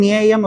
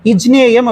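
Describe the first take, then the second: First: The word starts directly with a plain ny sound. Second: The word starts with i and a j sound. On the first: "வெறும் ஞேயம் அப்படின்னு சொல்லிடக்கூடாது" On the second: "இஜ்ஞேயம் அப்படின்னு சொல்லிடக்கூடாது"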